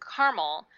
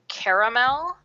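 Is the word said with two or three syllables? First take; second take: two; three. First: It is said with two syllables, West Coast style. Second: It is said with three syllables, East Coast style.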